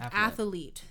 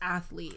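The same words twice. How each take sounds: First: The word is said with three syllables. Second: The word is said with two syllables. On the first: The speaker calls it wrong. "people sometimes say it with three syllables" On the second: The speaker calls it right. "it's actually two. It's just athlete"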